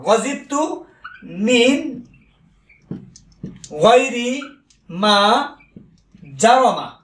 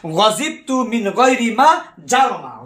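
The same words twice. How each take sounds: First: গজিবতু মিন গায়রি মা জারমা said very slowly, with long pauses between the words; ধীরে ধীরে, প্রতিটি শব্দ আলাদা করে বলা; slow dictation. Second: Said in the usual way. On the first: Shown as a demonstration. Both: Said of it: "খেয়াল করেন".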